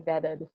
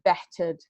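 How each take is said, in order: First: The middle consonant sounds like a D. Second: The middle consonant is a clear T sound. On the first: "my turt sounds like a dirt sometimes" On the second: "instead of"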